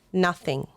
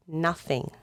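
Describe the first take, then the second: No difference in how they are said.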